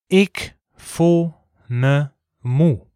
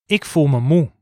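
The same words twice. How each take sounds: First: It is said slowly. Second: It is said at normal speed.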